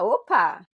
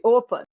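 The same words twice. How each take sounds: First: It is said in a positive, upbeat tone. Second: It is said in a negative, alarmed tone. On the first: A friendly, cheerful greeting or acknowledgement. "ele tem um tom mais positivo" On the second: Something has gone wrong. "opa como algo negativo"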